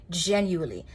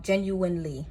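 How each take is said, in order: First: "genuinely" with its second n dropped, like "gen-yu-ly"; mispronounced genuinely. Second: Said in the usual way. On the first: Real, not acted. Tarot reader fumbling a word for the listener, "genuinely" said as "gen-yu-ly". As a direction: slip on "genuinely", swallowing the middle n. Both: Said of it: "I said that so wrong".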